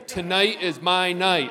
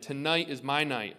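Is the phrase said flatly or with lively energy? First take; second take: lively; flatly. First: It is said loudly, with lively energy. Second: It is said plainly, with little energy. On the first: The speaker calls it right. "Now say it like you didn't die last Tuesday" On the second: The speaker calls it wrong. "Say that again"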